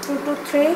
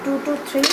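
No difference in how they are said.

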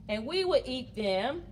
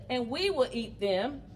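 The two takes are said the same way.

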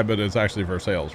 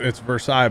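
First: Versailles said as ver-SALES; local Missouri pronunciation. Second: Versailles said the French way, ver-SIGH; French pronunciation. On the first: Correcting to the Missouri town's name, local pronunciation. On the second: Telling chat the French name, French pronunciation. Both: Shown as a demonstration.

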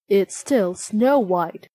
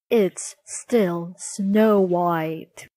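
First: Slow, measured answer; matter-of-fact mirror. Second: Very slow, drawn-out verdict; weary mirror. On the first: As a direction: give the unwelcome verdict evenly. Mirror answers the queen's question. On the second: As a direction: spell out each word with tired patience. Mirror pre-empts the repeated question. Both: A narrator's reading.

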